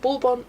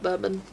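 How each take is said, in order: First: It is pronounced like the biscuit name. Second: It is pronounced unlike the biscuit name. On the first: The speaker calls it right. "I am calling it bourbon" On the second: The speaker calls it wrong. "not bourbon"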